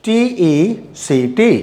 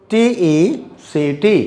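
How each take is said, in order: Both takes have the same delivery.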